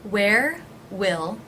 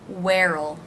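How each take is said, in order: First: Both words are said in full. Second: It is contracted with a reduced will.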